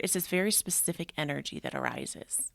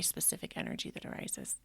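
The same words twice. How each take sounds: First: Said in the usual way. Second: Whispered repeat of the phrase; echoed whisper. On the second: Real, not acted. Podcaster echoing her own phrase to listeners, in a whisper. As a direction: let it drop to a whisper.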